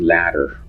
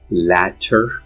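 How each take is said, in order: First: The middle consonant is a quick tap. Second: The middle consonant is a full voiceless T. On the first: "in rapid speech ... they end up pronouncing the tap" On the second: "if you enunciate it, pronounce it slowly. Latter, the T is voiceless"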